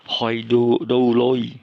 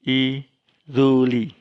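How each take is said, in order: First: It starts with 'hoy' and a D sound. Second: It starts with 'ee' and a soft R-like sound. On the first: This reading would not be understood by Greeks. The speaker calls it wrong. "itu aneh sekali. Orang Yunani tidak akan mengerti itu" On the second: This is how Greeks read it. The speaker calls it right. "orang Yunani akan membacanya i ruli"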